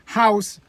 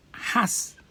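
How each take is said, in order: First: Said in the usual way. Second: "has" whispered short, the ow flattened to a; Benin "has". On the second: Shown as a demonstration. Benin man saying house as "has". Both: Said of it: "they don't have the time to enunciate".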